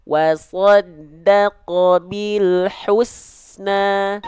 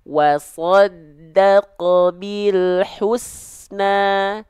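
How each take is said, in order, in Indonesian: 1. Vokal u diucapkan dengan memonyongkan bibir. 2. Vokal u diucapkan dengan memonyongkan bibir.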